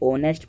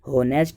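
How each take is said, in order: First: The word begins directly with a vowel sound. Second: The word begins with an audible h sound. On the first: The speaker calls it right. "यहाँ पर ये ऑनेस्ट पढ़ा जाएगा" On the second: The speaker calls it wrong. "यहाँ पर ये होनेस्ट नहीं पढ़ा जाएगा"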